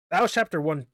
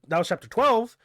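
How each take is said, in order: First: Said in the usual way. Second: Higher and louder on "twelve"; correcting "one" with a punched "twelve"; stress on twelve. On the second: Shown as a demonstration. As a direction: lean on "twelve" to correct yourself.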